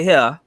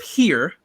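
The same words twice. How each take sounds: First: Here said as hah, with no R at the end; Chicago R-dropping. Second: Said in the usual way. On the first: Shown as a demonstration. Teasing how Chicagoans say it: here as hah, no R. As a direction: drop the R so here comes out hah. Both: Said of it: "Y'all don't like to use y'all R's".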